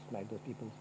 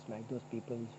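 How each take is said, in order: Both takes have the same delivery.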